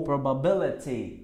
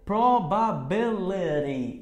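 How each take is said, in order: First: PROBABILITY ending in a clear "ti"; T pronunciation. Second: PROBABILITY drawn out slowly, ending in "ri"; slow PROBABILITY with a tapped T; American flapped T. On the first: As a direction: keep a true T in PROBABILITY. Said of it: "vai ter a terminação ti". ("probability" com T claro no final) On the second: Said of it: "americana ri". ("Probability" devagar, terminando em "ri") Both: Shown as a demonstration.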